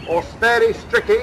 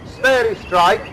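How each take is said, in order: First: The name ends in two syllables, 'stricky'. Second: The name ends in a single syllable, 'strike'. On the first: "as some people call it" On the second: "according to one's pronunciation"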